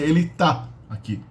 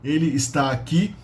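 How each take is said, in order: First: The verb's first syllable is dropped, giving tá. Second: The verb is said in full with its first syllable. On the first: It is the everyday colloquial form. "You say ele tá aqui" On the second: It is the formal, spelling-based form. "You don't say ele está aqui in colloquial speech"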